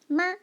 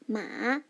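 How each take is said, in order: First: The pitch stays high and level. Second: The pitch dips down and then rises. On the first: It means mother. "the first tone, the flight tone" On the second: It means horse. "it's the dipping tone, it's the third tone"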